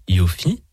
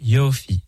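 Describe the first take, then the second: First: The stress is on the last syllable. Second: The stress is on the first syllable. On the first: The speaker calls it wrong. "et pas Yofi" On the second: The speaker calls it right. "je dis bien Yofi ... avec Miller L, avec l'accent tonique sur la première syllabe"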